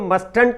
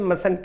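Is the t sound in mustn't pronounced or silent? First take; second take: pronounced; silent. First: The t sound is pronounced in the middle. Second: The t sound is silent in the middle. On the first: The speaker calls it wrong. "मस्टंट ना कह के" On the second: The speaker calls it right. "मसंट कहते, टी यहां पर silent होता है"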